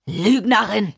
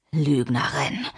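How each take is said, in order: First: Explosive, forceful accusation; enraged accusation. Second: Low, restrained accusation; menacing accusation. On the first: John rejecting Lina's denial of the story, enraged. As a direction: hurl the word out in rage. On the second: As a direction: say it low, as a threat. Man accusing Mimi before hitting. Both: Acted.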